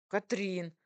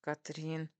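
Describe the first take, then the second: First: Mildly raised exclamation of a name; exclaimed reproach. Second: Hissed warning. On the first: Husband protests at wife's teasing, exclaiming. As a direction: call her name in protest. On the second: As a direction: warn her through a tight voice. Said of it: "прошипел он". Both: A narrator's reading.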